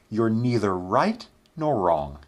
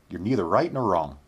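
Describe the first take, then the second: First: The sentence is spoken at a slow pace. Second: The sentence is spoken at a quick pace.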